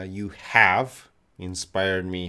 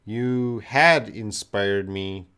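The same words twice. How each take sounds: First: "have" punched louder than the words round it; stress on have. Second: Slow, with a loud punch on "had"; stress on had. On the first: Teacher correcting the student's tense, stress on "have". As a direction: hit "have", then pause briefly after it. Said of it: "you should say you have". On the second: Teacher reading out a student's past tense sentence, stress on "had". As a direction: lean hard on the word "had". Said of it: "Had is, uh, past tense". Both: Shown as a demonstration.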